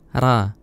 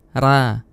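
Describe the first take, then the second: First: The r is said light and thin. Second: The r is said light and thin.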